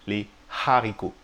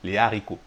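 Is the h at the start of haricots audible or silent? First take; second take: audible; silent. First: The h sound is breathed out audibly. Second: The h sound is silent. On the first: The speaker calls it wrong. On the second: The speaker calls it right.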